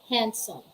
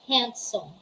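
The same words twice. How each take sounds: No difference in how they are said.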